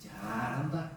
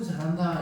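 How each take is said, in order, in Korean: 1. 날카롭게, 비꼬면서 나무라듯이 말하고 있어요. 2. 다정하게, 칭찬하듯이 말하고 있어요. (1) "이놈의 자식 잘한다" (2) "아이고 잘한다"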